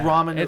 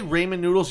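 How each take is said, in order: First: The first syllable sounds like 'raw'. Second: The first syllable sounds like 'ray'. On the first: The speaker calls it right. "Nobody says Raymond" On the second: The speaker calls it wrong. "if you say ramen noodles, you're fucking wrong"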